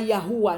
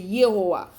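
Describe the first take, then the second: First: The first vowel sounds like 'a'. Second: The first vowel sounds like 'e'. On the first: The speaker calls it wrong. "C'est pas Yahoua" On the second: The speaker calls it right. "c'est Yehowa"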